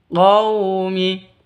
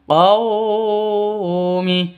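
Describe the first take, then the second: First: The 'qaw' sound is soft and short. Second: The 'qaw' sound is stretched out long. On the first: The speaker calls it right. "Yang betul qaumi" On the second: The speaker calls it wrong. "Atau dipanjangkan. Qaumi, salah"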